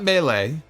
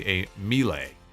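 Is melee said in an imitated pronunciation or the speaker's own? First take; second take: own; imitated. First: Melee is said in the speaker's own pronunciation. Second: Melee is said in an imitated, unusual pronunciation. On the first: "It's not melee" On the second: "as Vince McMahon would say"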